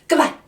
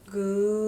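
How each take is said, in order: First: It is said very quickly. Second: It is said very slowly.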